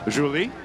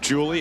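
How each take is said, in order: First: The name has a non-Americanized pronunciation. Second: The name has an Americanized pronunciation.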